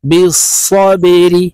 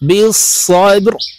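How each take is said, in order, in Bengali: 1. শেষের r-এ একটি ছোট i স্বর আছে। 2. শেষের r স্বরবিহীন ও থামানো। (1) "রজের রি" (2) "এই রকে সাকিন করে ফেলবো"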